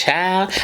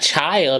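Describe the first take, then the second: First: The word has an African American vernacular pronunciation. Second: The word has a standard English pronunciation. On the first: The speaker calls it right. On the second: The speaker calls it wrong. "It's not child"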